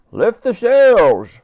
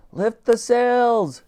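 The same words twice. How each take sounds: First: High, very slow, loud bellowed order; booming stretched ship's order; Admiral's order. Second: High, very slow called order; high, drawn-out ship's order; calling out. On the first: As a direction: outdo the girl's command. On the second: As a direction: stretch the command to the crew. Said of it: "she called out". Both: A narrator's reading.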